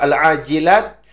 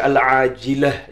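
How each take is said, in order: First: The word ends with a t sound. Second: The word ends with an h sound.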